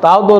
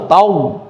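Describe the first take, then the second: First: তাও দো with the দ said twice as two separate beats; the split তাও দো, দ sounded twice; wrong doubling. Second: তাও said in one go, with the দ held once as a doubled consonant; a single smooth তাও, the দ doubled not repeated; correct doubling. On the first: Teacher to student, showing the wrong split তাও দো. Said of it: "তাও দো না". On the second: Teacher to student, modelling a single joined তাও. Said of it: "একবার উচ্চারণ হবে না". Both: Shown as a demonstration.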